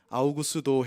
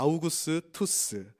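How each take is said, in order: First: The name ends with a 'do' sound. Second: The name ends with a 'tus' sound. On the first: The speaker calls it wrong. "옛날 번역하신 분들이 발음이 안 되니까 아우구스도 했는데 아우구스도라고 외국인에게 말하면 아무도 못 알아듣습니다" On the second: The speaker calls it right. "그러니까 아우구스투스"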